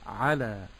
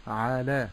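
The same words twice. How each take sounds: First: على with a short 'a, then long laa; short ayn. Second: على with the first vowel wrongly stretched, 'aa-laa; lengthened ayn. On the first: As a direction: keep the ayn of على brief and lengthen only the ending. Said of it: "ولكن أقول". («على» بعين قصيرة ولام ممدودة) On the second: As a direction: drag out the 'a of على. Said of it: "لا أقول على بمد ال". («على» بمدّ فتحة العين) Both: Shown as a demonstration.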